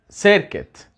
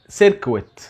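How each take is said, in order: First: The second syllable is said like 'kit'. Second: The second syllable is said like 'kwit'. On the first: The speaker calls it right. "النطق الصحيح بتاعها سيركت" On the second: The speaker calls it wrong. "ما اسمهاش سيركويت. كتير مننا بينطقها غلط"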